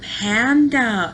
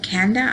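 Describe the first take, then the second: First: The word begins with a P sound. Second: The word begins with a K sound. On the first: This models the correct form of the word. The speaker calls it right. "the correct word" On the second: This repeats the child's own mispronunciation. The speaker calls it wrong. "she said Kanda. And so I said Kanda"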